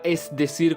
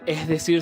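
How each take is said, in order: First: The s in 'es' is clearly pronounced. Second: The s in 'es' is weakened or dropped. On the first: The speaker calls it right. "con la S" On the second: The speaker calls it wrong. "dejar de hablar como estoy hablando"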